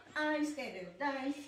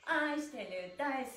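Both takes have the same delivery.

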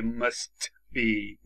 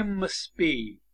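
First: "must be" slow, with a released t before b; t fully pronounced. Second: "must be" said as mus-be, with no t; t dropped. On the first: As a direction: sound the t of "must" separately, then "be". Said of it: "نمیگه must be". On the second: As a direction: drop the t in "must be", running s straight into b. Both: Shown as a demonstration.

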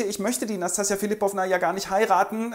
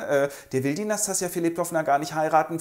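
First: Higher pleading voice; a hint of a whiny Ganja. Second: Said in the usual way. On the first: Ganja lässt ausrichten, Figurenstimme.

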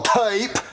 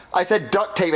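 First: Duct tape in an exaggerated British accent; mock British accent. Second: Duct tape with plain American vowels; American accent. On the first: Boy denying how he said it, mock British. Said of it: "I said duct tape in an American accent". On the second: Acted. Boy correcting his friend, American accent. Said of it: "in an American accent".

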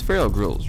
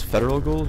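First: "feral ghouls" said FER-al, two syllables, like wild; "feral" clearly as FER-ul, not federal; correct pronunciation. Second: "federal ghouls" with an extra -de- syllable, FED-er-al; wrong pronunciation. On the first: Shown as a demonstration. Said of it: "It's pronounced that way". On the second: Retold or imitated. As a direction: mispronounce "feral" as "federal", like the government. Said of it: "definitely not the right way to pronunciate it".

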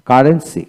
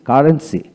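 No difference in how they are said.

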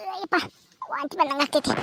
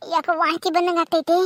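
First: Queasy, about to vomit. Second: Said in the usual way. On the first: Acted.

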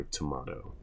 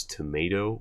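First: Tomato said "tuh-MAH-toh"; tomato with the vowel of "father"; broad-A tomato. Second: Tomato said "tuh-MAY-toh"; tomato rhyming with potato; long-A tomato. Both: Shown as a demonstration. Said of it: "Do you pronounce the word as".

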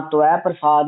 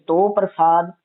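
First: "ਤਵੈ" as tu-ai, no hard v; "ਤਵੈ ਪ੍ਰਸਾਦ" as tu-ai prasaad; u-ai glide. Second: "ਤੋ" as toh, one syllable; "ਤੋ ਪ੍ਰਸਾਦ" as toh prasaad; o-vowel variant. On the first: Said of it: "ਔਂਕੜ ਐੜੇ ਦਲਾਵਾਂ". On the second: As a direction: round the vowel of "ਤੋ". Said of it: "ਤੱਤੇ ਹੋੜਾ ਤੋ ਪ੍ਰਸਾਦ". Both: Shown as a demonstration.

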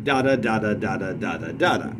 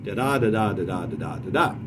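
First: Chanted "Da, da" pairs, each first syllable stressed; steady DA-da beat, strong then weak; trochaic rhythm. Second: Chanted "da-da" five times, each second syllable stressed; steady da-DA beat, weak then strong; iambic rhythm. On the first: Teacher demonstrating a trochaic line, first "Da" of each pair stressed. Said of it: "That would be a trochaic line". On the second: Teacher demonstrating an iambic line, every second "da" stressed in "da-da". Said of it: "That would be an iambic line". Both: Shown as a demonstration.

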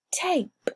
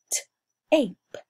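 First: Said in the usual way. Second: "T-ape" split apart; segmented. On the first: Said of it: "teacher blends the word". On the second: Shown as a demonstration. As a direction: stretch "T-ape" into two sounds. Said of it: "teacher segments the word".

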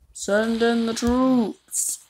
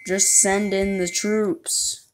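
First: Slow, higher drawn-out order; commanding voice. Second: Said in the usual way. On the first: Pretend. Ordering the troops forward in a slow commander voice. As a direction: call it out like a general.

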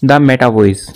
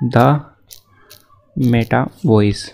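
First: Said in the usual way. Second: Meta Voice drawn out very slowly; slow dictation. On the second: Shown as a demonstration. YouTuber telling viewers what to search, very slow. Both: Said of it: "यहाँ पे search करना है".

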